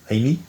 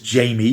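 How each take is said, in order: First: The name starts with an H sound. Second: The name starts with a J sound. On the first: This is how the character's own name is said. "He's pronounced as Hamey" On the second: This is how English speakers say the name. "we pronounce it as Jamie"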